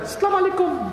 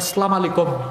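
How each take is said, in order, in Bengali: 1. সালামটি কৃত্রিম ও স্টাইলিশ ভঙ্গিতে বলা হয়। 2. সালামটি অযত্নে ও অস্পষ্টভাবে বলা হয়। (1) "মহিলারা স্টাইল করে বলে" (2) "অনেকে সালামটা সুন্দর করে শুদ্ধ করে দিতে পারে না"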